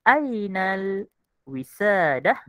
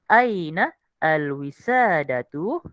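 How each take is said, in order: First: The words are run together with shortened ending. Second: Each word is read separately with full ending. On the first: "Yang kedua kita baca Ainal wisadah" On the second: "baca satu-satulah"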